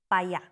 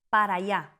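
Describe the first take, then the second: First: The first word is shortened, dropping its end. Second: The first word is said in full, two syllables.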